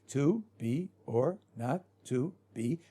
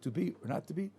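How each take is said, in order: First: The line is read flatly and mechanically. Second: The line is read with some expression.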